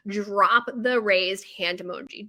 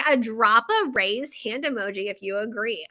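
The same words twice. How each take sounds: First: Mock proud pro. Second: Said in the usual way. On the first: Shown as a demonstration. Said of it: "just like a pro does". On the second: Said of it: "I spelled that out like a pro".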